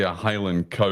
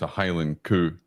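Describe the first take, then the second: First: The last word has an 'ow' vowel. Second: The last word has an 'oo' vowel. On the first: The speaker calls it wrong. "You don't you don't say a Highland cow" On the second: The speaker calls it right. "You have to say it's a Highland coup"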